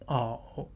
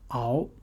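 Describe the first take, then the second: First: The tone dips low, then rises. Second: The tone rises from middle to high.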